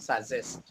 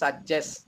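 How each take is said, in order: First: The middle consonant is a 'z' sound. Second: The middle consonant is a 'j' sound. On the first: The speaker calls it wrong. "Not সাজেস্ট। আপনি এটাকে জেড বলেছেন" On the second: The speaker calls it right. "এটা হবে বর্গীয় জ"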